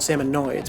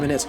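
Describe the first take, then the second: First: The last syllable sounds like 'noids'. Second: The last syllable sounds like 'nids'. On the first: The speaker calls it wrong. "you immediately assume they're called" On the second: The speaker calls it right. "but they're actually"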